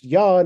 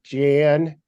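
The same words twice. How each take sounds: First: The name is said in a Norwegian way. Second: The name is said in an English way. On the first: This is how the name is actually pronounced. The speaker calls it right. "his name is pronounced Jan" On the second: This is the usual English reading of the name. The speaker calls it wrong. "instead of Jan"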